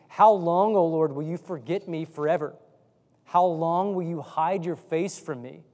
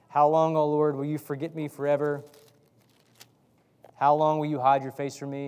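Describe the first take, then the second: First: It is read with passion and feeling. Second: It is read flatly, without passion.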